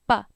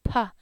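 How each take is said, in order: First: The P is released with no puff of air. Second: The P is released with a puff of air. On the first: "that's the Hmong P. It's a clear ... P, no aspiration" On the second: "In English, we say puh"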